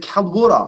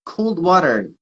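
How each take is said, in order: First: High imitation of Aussie "wodah"; mimicked Australian, r dropped from "water"; Australian accent. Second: Said in the usual way. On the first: Coach repeats his word to interpreter, imitated Australian accent. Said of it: "this is the Australian accent". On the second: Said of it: "I said".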